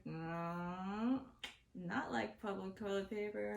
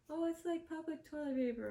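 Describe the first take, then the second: First: Retold firm denial. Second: Higher-pitched voice for the friend; lightly mock a friend who finds it funny; imitating amused friend. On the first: Speaker setting the laughing friend straight, firm denial. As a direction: correct the friend in your own register. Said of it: "I'm like". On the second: Friend teasing over the phone, imitated in a higher voice. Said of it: "she's just laughing. She's laughing. She's like".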